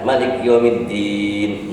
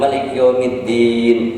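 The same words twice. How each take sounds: First: The final vowel is held about six counts. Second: The final vowel is held about four counts. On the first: "enam harkat" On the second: "empat harkat"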